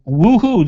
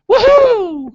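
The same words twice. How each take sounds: First: It sounds flat and unenthusiastic. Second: It sounds lively and enthusiastic. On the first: The excitement is not sincere. The speaker calls it wrong. "that didn't sound genuine" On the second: The excitement is sincere. The speaker calls it right. "There you go"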